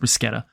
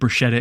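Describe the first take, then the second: First: It is pronounced the way Italian speakers say it. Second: It is pronounced the way the spelling looks. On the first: The speaker calls it right. "instead of bruschetta" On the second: The speaker calls it wrong. "I've said bruschetta"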